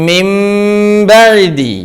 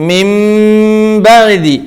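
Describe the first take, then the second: Both takes have the same delivery.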